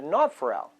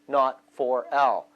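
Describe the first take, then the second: First: The words are run together quickly. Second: The words are said slowly and separately.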